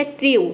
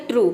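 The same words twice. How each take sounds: First: ट्रू with the u said as a gliding yoo, like tryoo; wrong pronunciation. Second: ट्रू with a long pure oo, troo; correct pronunciation. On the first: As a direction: deliberately mispronounce ट्रू with a yoo sound. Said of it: "तो आपको लगेगा कि pronunciation wrong है". (ट्रू को यू की ध्वनि से ग़लत उच्चारण) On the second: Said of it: "ये प्रोनाउंसिएशन करेक्ट है". (ट्रू का सही उच्चारण, लंबी ऊ ध्वनि) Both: Shown as a demonstration.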